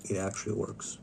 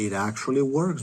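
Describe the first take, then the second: First: Much softer, almost under the breath; soft repeat. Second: Said in the usual way. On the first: Real, not acted. Repeating the claim to himself, quietly. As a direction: let it drop to a quiet murmur.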